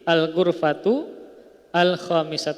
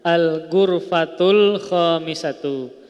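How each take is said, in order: First: The two words are said separately. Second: The two words are linked together. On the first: "ketika apa namanya berhenti" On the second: "kalau disambung"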